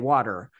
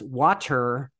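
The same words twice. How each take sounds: First: The middle t is a soft, quick flap. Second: The middle t is a crisp, clear t. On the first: The speaker calls it right. "We say water" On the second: The speaker calls it wrong. "why did that person say the T"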